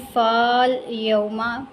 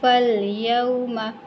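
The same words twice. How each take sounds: First: फाल यौमा with the first a drawn out to faal; wrong long vowel. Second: फल यौमा slowly, short fa closed straight onto lam; correct short vowel. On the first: Teacher shows students the mistake, long-vowel misreading. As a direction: stretch the alif in फाल यौमा. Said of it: "पढ़ने की बजाय क्या पढ़ेंगे". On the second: Teacher gives students the correct reading, slow short-vowel recitation. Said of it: "क्या पढ़ेंगे". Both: Shown as a demonstration.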